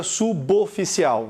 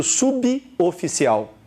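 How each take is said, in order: First: Suboficial run together as su-bo-fi-ci-al; misread division. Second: Suboficial as subi-oficial, prefix set apart; unchanged phonetics. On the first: Acted. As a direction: link the "b" to the "o" in suboficial, su-BO. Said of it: "A fonética não muda". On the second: Shown as a demonstration. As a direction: separate "sub" from "oficial" in suboficial. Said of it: "continua sendo suboficial".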